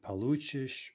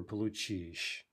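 First: Получишь with the beat on "лу"; stem stress on получишь. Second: Получишь with the beat on "чишь"; end stress on получишь. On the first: Teacher offering shifting stress, получишь stressed on middle syllable. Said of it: "Could be shifting stress". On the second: Teacher offering end stress, получишь stressed on last syllable. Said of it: "could be in stressed". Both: Shown as a demonstration.

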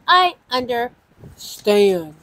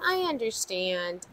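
First: "I understand" slow, each word stretched out; drawn-out emphasis. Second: Said in the usual way. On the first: Real, not acted. Host reassures viewers who may leave, drawn-out emphasis on "I understand".

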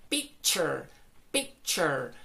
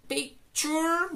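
First: Relax the end of picture to cher; correct picture. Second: Picture with Spanish oor ending; wrong picture. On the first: Teacher gives the correct picture to students. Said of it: "sería". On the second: Teacher demos a wrong picture to her class. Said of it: "it's not picture". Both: Shown as a demonstration.

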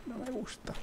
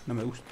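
First: Tiny high distant "No me gusta", much softer; squeaky mock voice. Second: Low-key "No me gusta" under the breath; just mutter it; quiet plain mutter. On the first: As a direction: squeak it like a small scared creature. Repeats phrase in squeaky voice. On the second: Real, not acted. Repeats phrase, first take.

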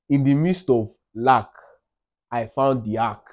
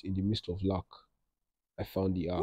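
First: Declaimed, with weight on midst and found; proud caption read with "midst" and "found" stressed; proclaimed caption. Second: Softer, murmured trial read of the caption; hushed first run of a caption; quiet caption read. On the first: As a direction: announce "In the midst of lack, I found the arc" like a motto. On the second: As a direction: try the caption line under your breath. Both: Shown as a demonstration. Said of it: "I'll now caption it".

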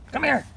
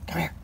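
First: High sing-song call to a pet; high-pitched come-here for a puppy; calling the dog. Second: Said in the usual way. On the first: Real, not acted. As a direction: coax the dog over, voice up high.

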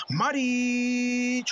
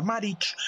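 First: Long stretched goal shout; breakneck goal commentary. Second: Said in the usual way. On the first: Acted. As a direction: hold the name like a goal call. Goal call, held shout.

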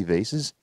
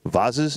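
First: "vases" said as VAY-siz; pronounced VAY-siz. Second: "Vases" said as VAH-ziz; pronounced VAH-ziz. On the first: Appraiser unsure of the word, "vases" as VAY-siz. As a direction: say "vases" with a long A and an S. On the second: Appraiser trying the other pronunciation, "Vases" as VAH-ziz. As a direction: say "Vases" with an AH and a Z, questioning. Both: Shown as a demonstration. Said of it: "Is it vase or vases".

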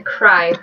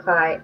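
First: Said in the usual way. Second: Mispronounced CRY, L for R; slip of the tongue. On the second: Real, not acted. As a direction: CRY said as "kly". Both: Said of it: "that's the new one".

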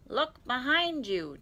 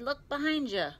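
First: High, loud, drawn-out holler; slow, emphatic character yell; insistent shout. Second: High-pitched urgent call; raised cartoon holler; shouting. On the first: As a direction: stretch it out so it carries. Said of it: "Tigger shouted again". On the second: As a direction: call out a quick heads-up. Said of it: "Tigger shouted". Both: A narrator's reading.

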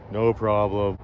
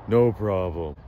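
The two takes are said the same way.

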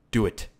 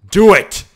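First: Said in the usual way. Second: High, explosive yell; motivational shout. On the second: Acted. Gamer urging split balls to merge, motivational shout. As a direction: roar the order. Shia LaBeouf meme shout.

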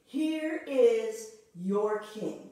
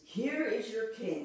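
First: Loud, very slow announcement; Pilate's proclamation. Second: Said in the usual way. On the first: Retold or imitated. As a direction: proclaim it slowly to the crowd, leaning on here. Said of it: "He just says to them".

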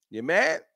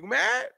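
First: Said in the usual way. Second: High teasing rise on mad; sing-song you mad, pitched way up; mocking taunt. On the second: Shown as a demonstration. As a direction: poke fun at the doubters. Taunting chat.

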